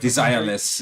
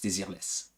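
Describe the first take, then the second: First: The name is said with an English pronunciation. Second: The name is said with a French pronunciation. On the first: "if you want to have it in English" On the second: "I am making a big effort to speak Français"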